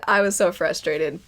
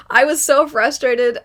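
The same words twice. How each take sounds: First: Said in the usual way. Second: Laughing frustration. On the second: Real, not acted.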